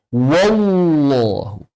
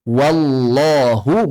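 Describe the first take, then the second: First: "wallahu" with the l blurred into a w, like wowlo; wrong wallahu. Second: "Wallahu" slow, with a clear doubled thick l; correct wallahu. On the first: Teacher showing the error, w-coloured "wallahu". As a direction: round "wallahu" into a long wow sound. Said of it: "Jangan pakai waw juga". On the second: Teacher modelling the right reading, clear "Wallahu". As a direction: recite "Wallahu" with a clean l at the tongue tip. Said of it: "bukan wallahu". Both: Shown as a demonstration.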